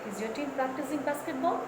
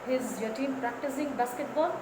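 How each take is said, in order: No difference in how they are said.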